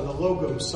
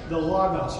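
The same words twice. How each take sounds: First: "Logos" said with long o's, LOH-gohs; alternative Logos pronunciation. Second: "Logos" said with an open ah, LAH-gahs; Logos pronunciation. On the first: Offering the other name for the ship, "Logos" with oh vowels. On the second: Unsure how ship's name is said, "Logos" with ah vowels. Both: Shown as a demonstration. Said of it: "I don't know how they say it".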